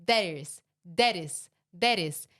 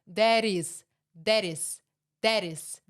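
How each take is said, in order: No difference in how they are said.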